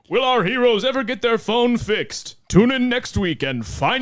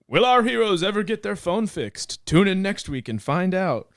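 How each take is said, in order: First: The announcer voice is strong and high-energy. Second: The announcer voice is weak and low-energy.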